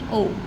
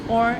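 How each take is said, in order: First: The vowel ends with no r sound. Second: The vowel ends with an audible r sound. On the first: "if you are teaching in British accent, then this is only o" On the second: "if you are teaching in American accent, then this is or as in fork"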